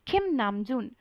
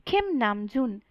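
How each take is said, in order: Both takes have the same delivery.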